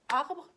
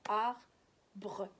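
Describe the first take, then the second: First: The word is said smoothly as one syllable. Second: The word is split into two separate syllables. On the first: This is how people say it in normal speech. "quand on parle, on dit arbre" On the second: This is how to read it while decoding syllable by syllable. "En deux syllabes"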